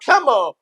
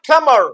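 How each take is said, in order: First: The final r sound is dropped. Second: The final r sound is clearly pronounced. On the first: "ये रे को तभी बोलेगा जब इसके आगे वाले वर्ड में कोई वावल" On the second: "जो अमेरिकन है वो आर को हमेशा बोलेगा"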